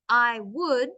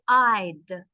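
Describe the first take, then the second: First: It is said as two separate full words. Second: It is said as one short contracted syllable. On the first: "instead of I would" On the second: "you could say I'd"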